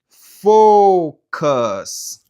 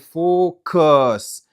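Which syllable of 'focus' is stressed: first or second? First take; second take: first; second. First: The stress is on the first syllable. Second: The stress is on the second syllable. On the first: The speaker calls it right. "M ale focus" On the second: The speaker calls it wrong. "m pa ale focus"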